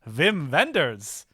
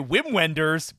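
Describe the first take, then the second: First: The name is said with a German accent. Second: The name is said with an English accent. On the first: The speaker calls it right. "That's how you say his name, right?" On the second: The speaker calls it wrong. "I know that's not how you say his name"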